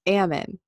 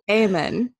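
First: The first vowel is a short A. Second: The first vowel is not a short A. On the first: The speaker calls it right. "Short A" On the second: The speaker calls it wrong.

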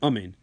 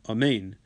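First: The stress is on the first syllable. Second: The stress is on the second syllable. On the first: The speaker calls it wrong. "rather than amen" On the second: The speaker calls it right. "he's supposed to emphasize the second syllable"

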